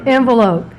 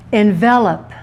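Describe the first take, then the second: First: "Envelope" stressed on the first syllable; "Envelope" as a noun, long last vowel. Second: "Envelop" stressed on the middle syllable; "Envelop" as a verb, short last vowel. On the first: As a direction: say "Envelope" as EN-vuh-lope. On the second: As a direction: say "Envelop" as en-VEL-up. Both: Shown as a demonstration. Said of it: "I'm gonna reverse it on you".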